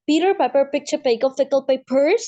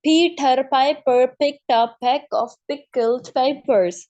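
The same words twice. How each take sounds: First: The sentence is said quickly. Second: The sentence is said slowly. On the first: The speaker calls it right. "Like this" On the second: The speaker calls it wrong. "आपने इस तरह से नहीं पढ़ना होता है इसको"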